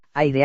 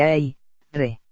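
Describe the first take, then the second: First: Said in the usual way. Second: "ai, re" in two separate syllables; "ai, re" broken at the syllable boundary; split into syllables. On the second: Shown as a demonstration. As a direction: say "ai", pause, then "re". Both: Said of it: "dividimos una palabra al pronunciarla".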